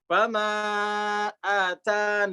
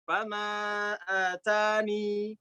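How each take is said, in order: First: The final vowel is dropped, ending on 'n'. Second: The final 'ee' vowel is kept at the end. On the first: "ya-nya dibuang jadinya mat arid li sukun" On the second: "satu caranya adalah isbat ya atani"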